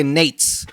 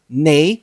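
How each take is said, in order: First: "Nates" as one syllable; wrong pronunciation. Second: "nates" in two syllables, NAY-teez; correct pronunciation. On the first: Player shows the expected reading, "Nates" in one syllable. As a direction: say "Nates" to rhyme with dates. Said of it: "I know you wanna say Nates". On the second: Player teaches the host, "nates" slowly as NAY-teez. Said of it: "tell me how to say this word". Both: Shown as a demonstration.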